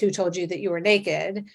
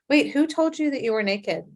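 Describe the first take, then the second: First: It sounds accusing and harsh. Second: It sounds gentle and inviting.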